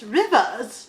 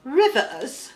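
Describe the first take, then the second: First: "Rivers" said in a prim British accent; a prim British accent on "Rivers" with the r softened; mock British accent with a falling "Rivers"; mock British Queen. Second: "Rivers" said like the Queen in a British accent, mouth barely open; a posh British accent on "Rivers"; British Queen accent, "Rivers" said with a tight mouth; mock British Queen. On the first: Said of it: "You should say it like this". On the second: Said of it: "if you feel like the Queen". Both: Shown as a demonstration.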